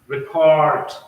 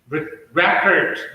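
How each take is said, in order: First: The stress is on the second syllable. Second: The stress is on the first syllable. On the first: It is used as a verb. "verb. So you'll see that stress shift to second syllable" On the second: It is used as a noun.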